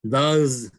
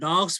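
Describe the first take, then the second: First: The word ends with a buzzing z sound. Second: The word ends with a hissing s sound. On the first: "S become also a J. Dogs, they say that" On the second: "डग्स भनेर हामी पढिरहेको"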